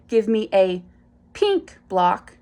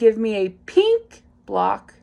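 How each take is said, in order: First: There is a pause before pink. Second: The intonation changes, with no pause before pink. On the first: "You can also pause before saying the target" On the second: "change your vocal intonation"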